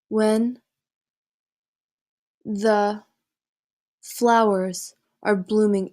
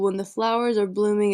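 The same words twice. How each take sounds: First: It is read with pauses between the phrases. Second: It is read straight through without pauses. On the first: The speaker calls it right. "here's how you should read it" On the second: The speaker calls it wrong. "this is with no breaks"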